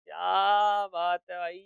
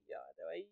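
First: Slow, drawn-out dictation while typing. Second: Said in the usual way. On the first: Shown as a demonstration. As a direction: stretch each word out as if typing it. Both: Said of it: "title भेजो".

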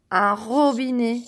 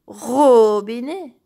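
First: Said in the usual way. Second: "robinet" slowly, first syllable RO long and strong; stress on RO. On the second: Shown as a demonstration. Teacher comparing syllables for children, "robinet" with RO stressed. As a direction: stretch and punch the "ro" starting "robinet". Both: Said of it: "C'est la même syllabe".

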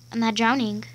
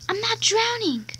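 First: Said in the usual way. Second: Much higher teasing boast; sing-song taunt. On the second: Pretend. Kid boasting underwater, high sing-song taunt.

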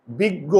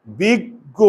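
First: বিজ্ঞ said as বিগ্গো with jaw closed, ending on o; closed-jaw biggo. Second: বিজ্ঞ said as বিগ্গ with jaw open; open-jaw biggo. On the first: Teacher showing বিজ্ঞ with closed jaw. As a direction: say বিজ্ঞ with jaw shut so it ends in o. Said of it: "মুখের চোয়াল বুজে আছে". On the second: Teacher showing বিজ্ঞ with open jaw. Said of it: "মুখের চোয়াল খুলে". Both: Shown as a demonstration.

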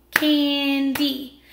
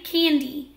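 First: "Candy" split slowly, CAN-DY; clapped into syllables. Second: Said in the usual way. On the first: Shown as a demonstration. Teacher clapping out the word with pupils, clapped syllables. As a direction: break "Candy" into two distinct beats. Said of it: "Let's clap it". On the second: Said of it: "I'm gonna say the word".

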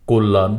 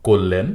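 First: কল্যাণ said "kollan", second vowel a; variant with a. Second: কল্যাণ said "kollen", second vowel e; variant with e. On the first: Teacher giving the first accepted variant, "kollan". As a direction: end কল্যাণ on -lan. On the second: Teacher giving the second accepted variant, "kollen". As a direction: end কল্যাণ on -len. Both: Shown as a demonstration. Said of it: "দুটি উচ্চারণেই সঠিক".

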